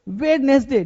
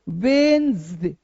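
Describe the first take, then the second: First: The first d sound is pronounced. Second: The first d sound is silent. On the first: The speaker calls it wrong. "तो ऐसे बोलना गलत" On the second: The speaker calls it right. "डी होता है silent"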